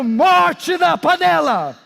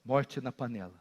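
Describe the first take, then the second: First: High, loud, slow preacher's cry; shouted warning. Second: Very low, soft and grave; quiet, sombre warning; hushed repeat. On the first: Acted. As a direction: shout it out, stretching the words. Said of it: "alguém está aqui hoje gritando". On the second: Real, not acted. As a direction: let it drop almost to nothing. Hushed repeat after the shout.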